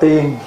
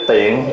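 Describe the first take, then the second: First: The word has a level tone. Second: The word has a low glottalized tone. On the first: The word means an immortal. "Cất dấu huyền là tiền là tiên" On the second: The word means convenient. "Để dấu nạn tiền rất tiện"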